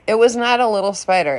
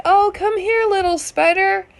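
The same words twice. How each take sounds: First: Said in the usual way. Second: Much higher, coaxing voice for a spider; sweet-talking neighbor. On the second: Retold or imitated. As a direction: coax it like a pet, way up high. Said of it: "he's like".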